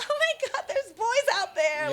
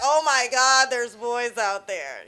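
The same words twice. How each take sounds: First: It is said in a giggly, excited tone. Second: It is said in an unimpressed, dismissive tone.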